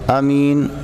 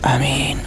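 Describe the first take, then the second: First: It is said aloud at normal volume. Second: It is said quietly, under the breath.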